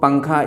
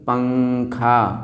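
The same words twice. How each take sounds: First: The nasal sound is short and quick. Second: The nasal sound is held with a hum. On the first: The speaker calls it wrong. "इस जल्दी से नहीं कह देंगे" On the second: The speaker calls it right. "थोड़ा सा गुनगुना करके, थोड़ा रोक करके"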